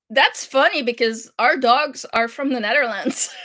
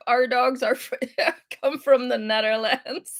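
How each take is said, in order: First: Said in the usual way. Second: Our leaned on as a correction, then laughing; stress on our. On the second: Shown as a demonstration. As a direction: correct them by hitting Our. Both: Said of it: "Your dog is from Antwerp".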